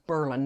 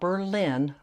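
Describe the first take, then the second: First: It is pronounced the way the Ohio town says it. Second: It is pronounced the way the German city is said. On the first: It names the small town in Ohio. The speaker calls it right. "it's called and pronounced Berlin" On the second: It names the capital of Germany. The speaker calls it wrong. "not Berlin like in Germany"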